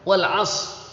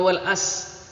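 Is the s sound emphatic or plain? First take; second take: emphatic; plain. First: The s sound is heavy and emphatic. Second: The s sound is light and plain. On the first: The speaker calls it right. "wal as pakai shot" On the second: The speaker calls it wrong. "bukan wal as"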